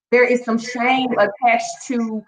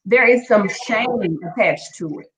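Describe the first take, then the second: First: Slow, weighted repeat of "There is some shame attached to"; slowed emphatic repeat. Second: Said in the usual way. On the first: Shown as a demonstration. Stressing the point to her live audience, slow and weighted. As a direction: lean on each word of "There is some shame attached to", slowly. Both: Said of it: "very transparent and very real".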